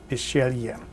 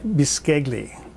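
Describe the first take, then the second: First: Some written consonants are left unsounded. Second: Every written consonant is sounded out. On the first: This is how Italians say the word. "they pronounce it, if I'm doing this correctly" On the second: This is how the word looks when read. "It looks like bisceglie"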